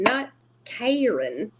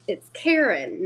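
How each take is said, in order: First: Not Karen with Karen said KAY-ren, long a, drawn out and rising; slow, rising KAY-ren, the wrong way; mispronounced name. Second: It's Karen with Karen said KEH-ren, short e; correct way she says her name. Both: Retold or imitated. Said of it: "I was like".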